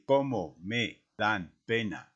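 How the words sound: The words are separated by small pauses. The speaker calls it wrong. "aísla y divide el mensaje"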